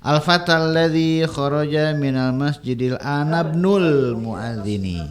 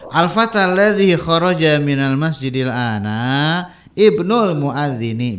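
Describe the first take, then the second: First: 'Ibnul' is joined on, its i dropped. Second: There is a pause before 'ibnul', its i pronounced. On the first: "kalau mau digabung i-nya jangan dibaca ya" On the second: "Kalau di jeda nggak masalah ya"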